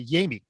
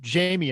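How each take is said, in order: First: The name starts with a 'y' sound. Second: The name starts with an English 'j' sound. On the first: This is how he himself says his name. The speaker calls it right. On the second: This is how others have been saying the name. The speaker calls it wrong. "we've been calling him Jamie"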